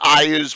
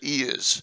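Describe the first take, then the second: First: The name begins with an 'eye' sound. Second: The name begins with an 'ee' sound. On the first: This is how some other people say it. "Some people pronounce it Iaz" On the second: This is how the speaker's group has always said it. "We've always pronounced it Eaz"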